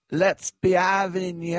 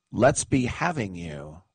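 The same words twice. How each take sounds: First: High, drawn-out crowd-rousing call; rallying a crowd. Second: Said in the usual way. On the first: Retold or imitated. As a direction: imitate her calling out slowly to the stadium. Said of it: "and she said".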